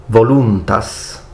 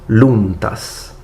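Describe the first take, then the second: Both takes have the same delivery.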